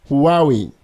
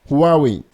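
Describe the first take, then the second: No difference in how they are said.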